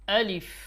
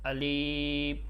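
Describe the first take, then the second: First: The vowel is short and strong, not drawn out. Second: The vowel is drawn out and lengthened. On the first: The speaker calls it right. "এখানে কোনো টান দেওয়া যাবে না" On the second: The speaker calls it wrong. "এরকম টান দিয়ে ফেলে, এরকম হবে না।"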